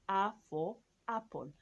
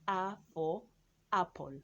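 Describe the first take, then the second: No difference in how they are said.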